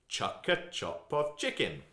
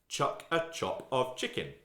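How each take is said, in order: The two takes are said the same way.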